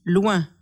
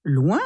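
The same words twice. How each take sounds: First: Said in the usual way. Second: "Loin" swooping up into a question; baffled echo. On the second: A narrator's reading. Camille questions the word she just read, "Loin" rising steeply in bafflement. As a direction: repeat "Loin" with a sharp questioning rise.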